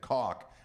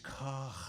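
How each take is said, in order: First: The final sound is a plain hard k. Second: The final sound is a throaty, raspy friction. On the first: This is the simplified family way of saying the name. "take the spit out of it" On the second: This is the original way of saying the name. "get a little spit in the back of his throat"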